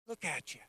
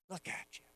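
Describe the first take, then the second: First: Soft and fond as God admiring his creation; hushed admiration, like a proud maker; tender. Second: Breathless whisper of wonder. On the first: God marveling softly at the man he made. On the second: God whispering in awe over his prize creation. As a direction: whisper it, awestruck. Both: Acted. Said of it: "he goes".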